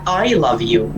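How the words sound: The stress falls on the word I. Nobody else loves you except me. "i-stress natin ang I"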